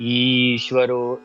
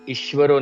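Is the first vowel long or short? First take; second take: long; short. First: The first vowel is held long. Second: The first vowel is cut short. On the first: The speaker calls it right. "ई दीर्घ आहे" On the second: The speaker calls it wrong. "नाही"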